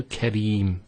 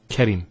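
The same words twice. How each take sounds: First: Kareem with a long E. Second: Karim with a short I. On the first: Teacher giving the right Kareem. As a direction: hold the ee in Kareem. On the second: Teacher showing the wrong Karim. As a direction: clip the I in Karim. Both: Shown as a demonstration. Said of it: "not Karim".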